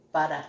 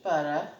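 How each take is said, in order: First: BUTTER in her own accent, final r dropped; own regional accent. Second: Said in the usual way. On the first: Real, not acted. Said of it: "Yep, that's my accent". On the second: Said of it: "that's my accent".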